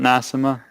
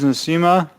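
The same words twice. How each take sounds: First: The vowel after the s is short. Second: The vowel after the s is a long ee. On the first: The speaker calls it wrong. "not Nasima" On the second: The speaker calls it right. "one and two is Nasima"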